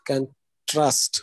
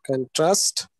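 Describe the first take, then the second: First: "contrast" said at normal pace, the stress shifted for the other word class; teacher gives the other reading of "contrast"; second stress take. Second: "contrast" said slowly and drawn out, one syllable pushed; teacher stretches "contrast" to show its stress; stressed demo word. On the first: Teacher contrasting the second pronunciation for students, quicker model. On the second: Teacher showing students how to stress contrast, slow careful model. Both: Shown as a demonstration. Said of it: "absent has two things".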